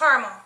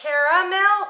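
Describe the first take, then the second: First: The middle vowel is dropped, giving two syllables. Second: The middle vowel is pronounced, giving three syllables. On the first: "or does it just caramel" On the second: "Do you pronounce the A in it"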